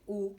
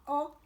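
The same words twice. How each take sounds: First: O said as a closed, rounded 'oh'. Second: O said open, as in 'cot'. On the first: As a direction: keep O tight and rounded. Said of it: "il fait O". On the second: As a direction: drop the jaw slightly on O. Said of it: "il ne fait pas O". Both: Shown as a demonstration.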